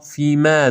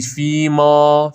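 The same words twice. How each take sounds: First: فیما ending in a light "mæ"; thin, open a closing فیما; correct fronted vowel. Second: فیما ending in a back "maw"; heavy aa closing فیما; wrong dark vowel. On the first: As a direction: say فیما as "fiimæ". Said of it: "فیما درسته". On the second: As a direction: say فیما as "fiimaw". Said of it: "نخونید فیما". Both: Shown as a demonstration.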